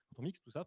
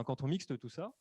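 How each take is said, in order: First: "mixe" said as miks, no t at the end; correcting to "mixe", with the t dropped; corrected mixe. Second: "mixte" said as mikst, with the t sounded; a quick slip saying "mixte" with a final t. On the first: Correcting the slip for webinar listeners, says "mixe" cleanly. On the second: Explaining the production function, slips on "mixte". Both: Real, not acted.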